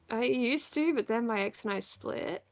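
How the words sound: The voice rises and turns creaky at the end. The speaker calls it right. "it sounded like a question and it fried at the end"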